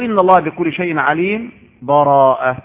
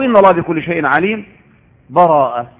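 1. هناك سكتة قصيرة بلا نفَس قبل الكلمة الأخيرة. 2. هناك وقف مع نفَس قبل الكلمة الأخيرة.

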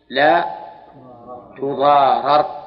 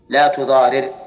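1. الحركة قبل الراء الأخيرة هي 'a'. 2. الحركة قبل الراء الأخيرة هي 'i'. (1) "وإذا قلنا إنها مبنية للفاعل المفعول صار فكل إدغام هكذا" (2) "إذا قلنا إن تضار مبنية للفاعل صار فك الإدغام هكذا"

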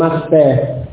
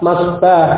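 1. Vokal panjangnya condong ke bunyi 'e'. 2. Vokal panjangnya adalah 'a' terbuka yang biasa. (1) "tidak boleh" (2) "ya tetap harus fathah"

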